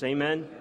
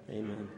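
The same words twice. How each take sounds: First: Rising call to the congregation; calling for amen. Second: Soft closing amen. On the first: Preacher asking the congregation for an amen, rising call. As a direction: toss it out as a question to the room. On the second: Closing his sermon softly. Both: Real, not acted.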